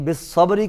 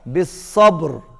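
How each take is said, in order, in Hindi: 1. शब्द का अंत छोटे स्वर पर होता है। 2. शब्द का अंत मौन व्यंजन पर होता है। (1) "बिस्सब्री की बजाय" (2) "होगा बिस्सब्र"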